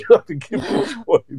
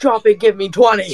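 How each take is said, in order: First: High barked drill command; drill sergeant. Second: Barked high drill order; drill sergeant. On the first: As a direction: bark the order like boot camp. Repeats the drill sergeant line. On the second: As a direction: shout it like a drill instructor. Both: Pretend.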